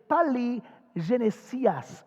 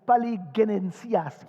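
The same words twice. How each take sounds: First: The middle part sounds like the French word Genèse. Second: The middle part does not sound like Genèse. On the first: It is the usual pronunciation, linked to Genesis. "mais on met Génésias parce qu'on voit Genèse dans le mot" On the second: It is the original pronunciation. "qui serait la vraie prononciation"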